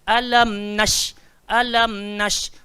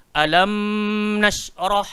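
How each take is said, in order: First: "Alam nash" slow, the m closed in one short step; correct recitation. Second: "alam nashrah" with a long humming m before the n; wrong recitation. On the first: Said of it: "So kita bunyi one step sahaja". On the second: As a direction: show the mistake by humming the m in "alam". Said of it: "So jangan dibaca". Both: Shown as a demonstration.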